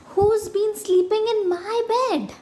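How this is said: The voice is high and squeaky. "Squeaked Baby Bear in his tiny voice"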